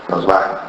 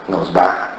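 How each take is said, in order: Both takes have the same delivery.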